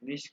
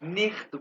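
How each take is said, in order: First: The ch is a soft sh-like sound. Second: The ch is a harsh throaty kh sound. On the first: Most people in Germany say it this way. "लेकिन ज्यादा लोग इसको जर्मनी में निश्त पढ़ते हैं।" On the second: Some people say it this way. "इसको लोग निख्त भी पढ़ते हैं, जैसे कि मैंने कहा सीएच को खे भी पढ़ते हैं।"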